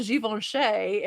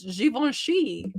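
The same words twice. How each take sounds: First: Givenchy as zhee-von-SHAY; Givenchy ending in SHAY. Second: Givenchy as zhee-von-SHEE; Givenchy ending in SHEE. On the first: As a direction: end Givenchy on "shay", not "shee". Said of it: "I was saying shay instead of she". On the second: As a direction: end Givenchy on "shee", not "shay". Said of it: "Google says that it's Givenchy". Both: Shown as a demonstration.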